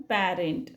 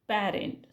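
First: The first vowel is a front 'a' as in cat. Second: The same.

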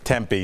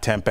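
First: It is pronounced like the Arizona city name. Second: It is pronounced like the soy food tempeh. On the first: It names a city in Arizona. The speaker calls it right. "it's Tempe, ... A city in Arizona" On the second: It names a meat substitute. The speaker calls it wrong. "not Tempe. It's not a fake meat"

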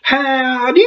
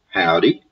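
First: It is said in a put-on imitation voice. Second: It is said in the speaker's natural voice.

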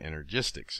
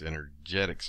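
First: The third syllable sounds like 'gis'. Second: The third syllable sounds like 'get'. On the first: The speaker calls it wrong. "I was pronouncing it applied energistics" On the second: The speaker calls it right. "It's energetics, apparently"

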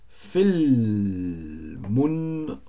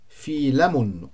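First: The L is followed directly by the M. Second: A vowel is inserted between the L and M. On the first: The speaker calls it right. "das L nicht vokalisiert werden" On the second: The speaker calls it wrong. "Es hätte ja sein können"

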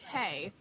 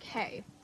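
First: It is said aloud, not whispered. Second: It is whispered.

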